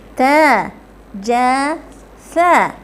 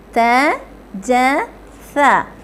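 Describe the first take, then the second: The two takes are said the same way.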